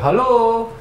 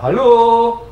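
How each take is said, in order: First: It is said more quietly. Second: It is said louder.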